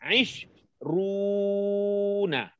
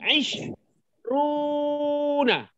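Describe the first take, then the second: First: The word is said with a lower-pitched voice. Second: The word is said with a higher-pitched voice. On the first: It is used with a masculine noun. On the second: It is used with a feminine noun.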